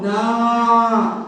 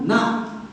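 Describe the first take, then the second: First: The ain sound flows on without stopping. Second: The ain sound is cut off and held. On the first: "Kalau dia rakhawah" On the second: "Kalau syiddah"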